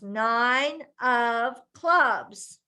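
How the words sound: The voice is projected forward with clear intent. The speaker calls it right. "We're speaking out"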